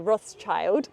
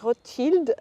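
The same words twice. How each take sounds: First: The name is said in the English way. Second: The name is said in a non-English way.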